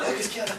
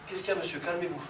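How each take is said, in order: First: Mock startled outburst, the wrong way; panicked reaction. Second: Composed, soft-spoken de-escalation; calm reaction. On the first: Instructor shows students how not to react to a threat, mock panicked. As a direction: jump at it with a sudden panicky "ah". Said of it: "je me calme. Je me fais pas". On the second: Instructor models talking down an aggressor, calm and soft. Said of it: "Je me calme, je me tourne". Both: Shown as a demonstration.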